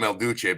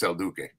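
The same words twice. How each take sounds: First: El Duce said with a "ch" sound; mispronounced name. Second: El Duque said with a hard "k"; correct name pronunciation. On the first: Correcting a friend on a dog's name, El Duce with a "ch". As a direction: say Duce as "DOO-chay". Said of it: "They called him El Duce". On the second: Giving the dog's real name, El Duque with a "k". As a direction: say Duque as "DOO-kay". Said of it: "but it's El Duque". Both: Shown as a demonstration.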